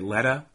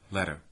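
First: The word ends in a strong, open 'ah' vowel. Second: The word ends in a weak, neutral vowel. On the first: "So in Boston, perhaps, I might say letter. And really open it pretty strongly" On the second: "That is just schwa, I think"

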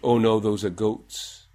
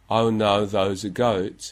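First: It sounds like Multicultural London English with pure vowel. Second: It sounds like English with a Cockney-influenced goat vowel. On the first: "And then in multicultural London English" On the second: "Then the influence of Cockney"

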